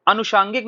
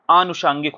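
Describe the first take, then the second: First: अनुषांगिक with short अ, said higher; wrong form. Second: आनुषांगिक with long आ, falling; correct form. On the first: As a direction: show the mistaken अनुषांगिक. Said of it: "अनुषांगिक नहीं होता है". (गलत शब्द अनुषांगिक, ऊँचे स्वर में) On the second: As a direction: lengthen the आ in आनुषांगिक. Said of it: "शुद्ध क्या होता है शब्द". (सही शब्द आनुषांगिक, लंबा आ) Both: Shown as a demonstration.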